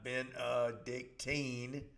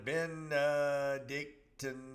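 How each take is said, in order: First: The final syllable is a long 'teen' sound. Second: The final syllable is a short 'tin' sound. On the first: The speaker calls it wrong. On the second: The speaker calls it right. "reminding me how to say"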